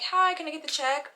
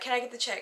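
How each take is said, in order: First: It is said in a polite, friendly tone. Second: It is said in an irritated tone.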